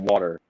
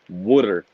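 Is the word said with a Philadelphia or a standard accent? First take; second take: standard; Philadelphia. First: It sounds like water, with a standard accent. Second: It sounds like wooder, with a Philadelphia accent. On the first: "instead of water" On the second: "my mom was raised in South Philly"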